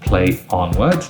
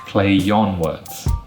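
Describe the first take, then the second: First: Play and on are separated without linking. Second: A y sound joins play to on smoothly. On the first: The speaker calls it wrong. "That's not smooth" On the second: The speaker calls it right. "it becomes play yon"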